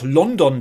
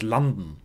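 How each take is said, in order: First: It is pronounced the German way. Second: It is pronounced the English way. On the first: This is how Germans say it. "So wie wir ja auch London sagen" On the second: This is how the English say it. "wie immer die Engländer das etwas anders aussprechen"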